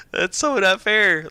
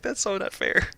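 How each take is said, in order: First: Higher, louder, slow laughing complaint; laughing whine. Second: Said in the usual way. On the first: Retold or imitated. Repeating her envious gripe to friends, slow laughing whine. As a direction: drag it out through a laugh, half-joking. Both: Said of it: "And I'm just like".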